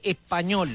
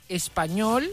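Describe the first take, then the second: First: The s becomes a breathy h sound. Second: The s is pronounced fully as a hiss. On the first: "uno dice español" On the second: "en vez de decir español"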